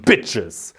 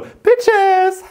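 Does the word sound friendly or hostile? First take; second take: hostile; friendly. First: It is said in a hostile, threatening way. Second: It is said in a cheerful, friendly way. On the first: It is meant as an insult. "ich mach dich fertig" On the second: It is meant as a friendly greeting. "Freudig und freundschaftlich"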